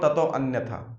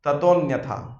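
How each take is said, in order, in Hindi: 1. 'tato' के बाद का 'a' बोला जाता है। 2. 'tato' के बाद का 'a' छोड़ा जाता है। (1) "इट्स नॉट" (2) "अ नहीं बोला जाता उसके अंदर, अ इज नॉट प्रोनाउंस्ड"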